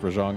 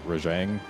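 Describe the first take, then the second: First: The second vowel sounds softer and less aggressive. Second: The second vowel sounds harsher and more aggressive. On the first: The speaker calls it right. "It's actually pronounced Rajang" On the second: The speaker calls it wrong. "it's got that more aggressive second vowel"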